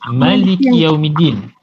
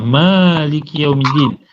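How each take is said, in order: First: The vowel in the first word is short. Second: The vowel in the first word is long.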